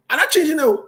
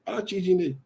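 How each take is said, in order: First: Loud, high, firm refusal; defiant. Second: Said in the usual way. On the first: Real, not acted. Host defying callers on air, loud and firm. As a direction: plant your feet and declare it.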